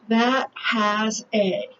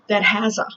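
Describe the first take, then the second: First: The words are said separately and carefully. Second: The words are run together into one unit. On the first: The speaker calls it wrong. "Americans would never pronounce it that way" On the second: The speaker calls it right. "They say"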